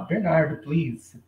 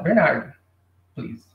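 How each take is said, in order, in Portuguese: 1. É dito de forma suave, com tom educado. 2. É dito de forma seca, com tom grosseiro. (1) "tenta soar educadamente, tá tudo certo" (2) "A pessoa já fica meio assim aí, cara"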